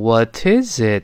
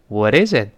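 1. 这个 t 要说得清楚、慢一些。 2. 这个 t 是轻快的一弹。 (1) "在慢速跟读的时候我读成What is it" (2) "是轻轻一扫，像蜻蜓点水一弹射"

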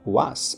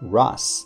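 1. 这个名字以 W 音开头。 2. 这个名字以 R 音开头。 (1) "变成了w 这个音了" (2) "正确的发音应该是"

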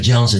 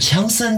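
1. 这个名字是用英语发音说的。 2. 这个名字是用汉语音节说的。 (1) "外国人名字Johnson 就Johnson" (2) "你不能是强森这么讲的话，肯定是不可以的"

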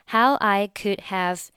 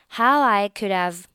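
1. 'could'末尾的d不发音。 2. 末尾的d顺畅地连到'have'上。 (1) "那你就选择could 末尾的不发音" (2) "直接和后面的这个have 进行一个连读"

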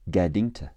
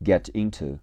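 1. t 变成 d，to 弱读。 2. 每个音都完整、分开地读。

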